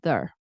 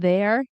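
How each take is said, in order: First: The merged syllable is said very quickly and reduced. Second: The two words merge into one syllable. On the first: "in very fast speech, it goes there" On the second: "which turns into there"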